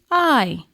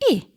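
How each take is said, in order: First: The vowel is said as a long sound. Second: The vowel is said as a short sound. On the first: "I giving out the long sound" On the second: "I having the short sound"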